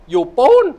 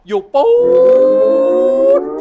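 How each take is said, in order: First: The word ปูน is said short and quick. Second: The word ปูน is stretched out long. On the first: The place is close by, just around the corner. "ปูนสั้น" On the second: The place is far away, so a ride is needed. "ปูนยาว"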